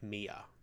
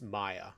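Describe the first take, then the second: First: The name is said as Mia. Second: The name is said as Maya. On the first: The speaker calls it wrong. "instead of Mia" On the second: The speaker calls it right. "I believe it's it's Maya Ford"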